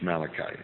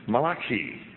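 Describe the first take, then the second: First: The name has a usual English pronunciation. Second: The name has an Italian-sounding pronunciation. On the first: "as we pronounce it often in English" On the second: "Malachi, we say"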